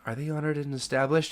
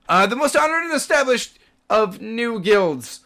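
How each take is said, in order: First: Said in the usual way. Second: Loud, high-pitched official pomp; booming proclamation. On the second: Acted. Guard resumes praising the new guild, booming proclamation. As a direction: proclaim it to the whole gate.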